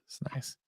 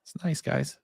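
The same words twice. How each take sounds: First: Breathy whisper under the breath. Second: Said in the usual way. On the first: Real, not acted. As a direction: whisper it to yourself.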